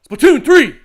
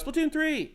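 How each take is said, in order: First: It is yelled in his own voice. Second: It imitates his daughter's voice, yelled.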